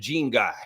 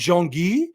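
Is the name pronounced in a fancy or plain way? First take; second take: plain; fancy. First: The name is pronounced in a plain, anglicized way. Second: The name is pronounced in a fancy, pretentious way. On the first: The speaker calls it wrong. "I'll say it wrong" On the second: The speaker calls it right. "the lady's so pretentious"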